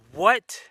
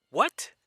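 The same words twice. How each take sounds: First: A loud, high disbelieving shout; louder shocked what. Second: Higher pitched and louder, a startled question; shocked what. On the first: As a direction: yell it out as the shock sinks in. Repeats it, even more shocked. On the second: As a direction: blurt it out, caught off guard. Shocked by the accusation. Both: Retold or imitated.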